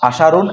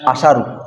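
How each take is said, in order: First: The word ends with a final n sound. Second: The word ends on a bare u vowel. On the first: The word is declinable. "যদি আশারুন পড়ি মানে তানবিন দিয়ে পড়ি" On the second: The word is indeclinable. "পেশ দিয়ে বললে মবনি"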